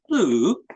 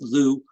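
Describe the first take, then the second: First: The vowel has a scooping, gliding sound. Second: The vowel is a plain oo sound. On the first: The speaker calls it right. "the correct um, pronunciation is blue" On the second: The speaker calls it wrong. "It's not just Lou"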